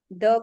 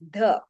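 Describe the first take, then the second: First: The th sound is voiced, with a buzz. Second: The th sound is voiced, with a buzz.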